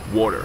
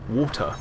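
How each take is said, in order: First: The T is softened to sound like a D. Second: The T is pronounced fully and crisply. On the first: The speaker calls it right. "where it becomes a bit of a D" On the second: The speaker calls it wrong. "it's too much"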